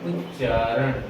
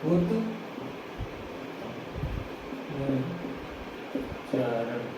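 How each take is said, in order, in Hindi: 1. t ध्वनि दोहरे ch में मिल जाती है। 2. t ध्वनि ch से पहले बनी रहती है।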